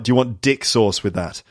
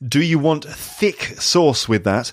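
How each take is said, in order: First: It is said in an accent, thick sounding dick. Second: It is said in a plain accent, thick clearly. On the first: This is how the words were heard. "because of the guy's accent, it sounds like" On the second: This is what the words really were. "So that's actually"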